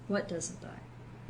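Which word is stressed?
what. The stress is on "what".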